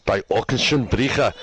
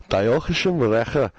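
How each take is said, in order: First: Team name pronounced as German; German accent. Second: Fluffy-sounding Welsh version; Welsh accent. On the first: Host showing co-host how intimidating it sounds, German accent. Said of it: "when you say it in German". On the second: Host contrasting it with German, fluffy Welsh accent. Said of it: "in a Welsh type accent sounds fluffy". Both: Shown as a demonstration.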